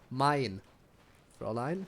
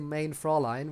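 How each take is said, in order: First: The first word's vowel sounds like 'eye'. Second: The first word's vowel sounds like 'ay' in 'day'. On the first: The speaker calls it right. "when it's mine Fräulein" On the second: The speaker calls it wrong. "I don't know why they say main Fräulein"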